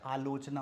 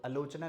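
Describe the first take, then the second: First: आलोचना with a long initial aa; correct pronunciation. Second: आलोचना with the first vowel cut to short a; common mispronunciation. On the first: Teacher correcting, आलोचना starting on long aa. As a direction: say आलोचना as "aa-lochna". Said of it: "आलोचना होता है". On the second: Teacher showing the wrong form, आलोचना starting on short a. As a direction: say आलोचना as "a-lochna". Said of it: "आलोचना नहीं होता है". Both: Shown as a demonstration.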